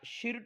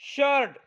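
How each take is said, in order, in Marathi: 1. स्वर 'i' आवाज आहे. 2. स्वर 'er' आवाज आहे.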